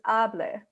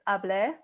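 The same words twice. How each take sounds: First: The stress is on the first syllable. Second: The stress is on the last syllable.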